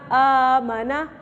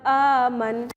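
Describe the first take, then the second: First: The word ends with a full final vowel. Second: The word ends on a silent final consonant. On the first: The reader continues without stopping. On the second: The reader stops at this word.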